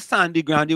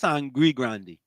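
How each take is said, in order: First: The first word sounds like sandy. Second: The first word sounds like sangre. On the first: This is the popular local way of saying it. The speaker calls it wrong. "Why people say Sandy Grande" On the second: This is the actual name of the place. The speaker calls it right. "when it's Sangre Grande"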